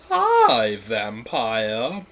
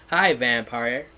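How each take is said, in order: First: Flirty. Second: Said in the usual way. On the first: Shown as a demonstration. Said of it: "I said flirty". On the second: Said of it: "that's not flirty at all".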